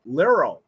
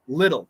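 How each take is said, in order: First: The middle consonant is an R sound. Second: The middle consonant is a quick flap T. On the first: The speaker calls it wrong. "If it's an R, it's liro" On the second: The speaker calls it right. "that's a flap T"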